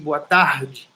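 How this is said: It is said with a Rio accent.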